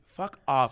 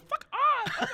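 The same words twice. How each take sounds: First: It is said in his normal voice. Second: It is said in a put-on voice.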